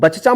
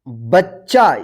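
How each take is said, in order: First: The middle consonant is single and short. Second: The middle consonant is doubled and held. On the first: The speaker calls it wrong. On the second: The speaker calls it right.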